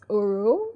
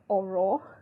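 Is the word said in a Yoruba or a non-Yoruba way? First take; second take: non-Yoruba; Yoruba. First: The word is said the non-Yoruba way. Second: The word is said the Yoruba way. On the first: "but I think it's Oro" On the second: "I'm a Yoruba girl, so I'm going to probably pronounce this word as oro"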